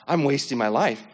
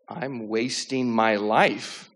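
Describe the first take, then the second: First: Said in the usual way. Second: Very slow, drawn-out retold realization; dawning realization. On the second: Retelling the thought that hit him on the couch, slowly dawning. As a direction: stretch each word as it sinks in.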